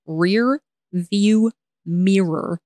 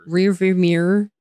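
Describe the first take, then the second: First: REAR, VIEW, MIRROR drawn out one word at a time; slow, separated words. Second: "Rear view mirror" run together quickly; failed fast attempt. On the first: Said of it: "unless I say it like that". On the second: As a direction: rush "Rear view mirror" so the words blur into one. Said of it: "I can't say it fast". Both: Shown as a demonstration.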